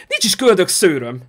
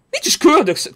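First: Said in the usual way. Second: Much higher, outraged protest; high-pitched indignant retort; indignant denial. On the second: Real, not acted. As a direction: squeak it out in mock offence. Repeats denial, pitch jumps.

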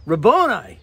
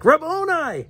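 First: A touch of recognition in the name; mild joyful call. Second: Sudden high joyful cry; cried out. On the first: Preacher retelling Mary's cry, lightly excited. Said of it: "she says". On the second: Mary recognizing the risen Jesus, crying out high. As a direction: call the name out in leaping recognition. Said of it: "cried out in Aramaic". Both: Acted.

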